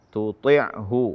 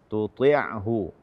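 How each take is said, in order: The two takes are said the same way.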